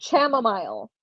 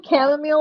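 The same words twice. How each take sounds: First: Chamomile with a hard "sh" start and "mile" rhymed with "smile"; mock his chamomile, "sham-o-mile"; imitating a mispronunciation. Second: Said in the usual way. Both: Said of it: "He says it chamomile".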